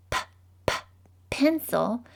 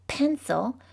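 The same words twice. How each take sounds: First: "p, p, pencil" with two separate puffed p sounds before the word; sounding out P. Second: Said in the usual way. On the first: Shown as a demonstration. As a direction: tap out "p" twice, then say "pencil" whole. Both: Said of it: "If I were to say pencil".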